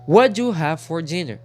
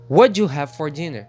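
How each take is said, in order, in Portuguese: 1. As primeiras palavras se misturam e formam um único som. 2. As primeiras palavras se misturam e formam um único som.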